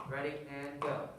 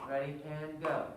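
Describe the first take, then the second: No difference in how they are said.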